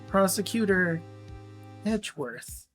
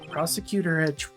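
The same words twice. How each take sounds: First: The phrase is said more slowly. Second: The phrase is said quickly. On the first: The speaker calls it right. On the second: The speaker calls it wrong.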